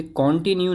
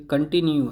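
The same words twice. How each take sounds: First: कंटिन्यू opening with full "kon"; wrong pronunciation. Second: कंटिन्यू opening with weak "kuhn"; correct pronunciation. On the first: Teacher rejecting a common misreading, कंटिन्यू said kon-tinyu. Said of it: "ये कंटिन्यू नहीं है". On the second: Teacher correcting learners' reading, कंटिन्यू said kuhn-tinyu. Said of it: "ये कंटिन्यू है". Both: Shown as a demonstration.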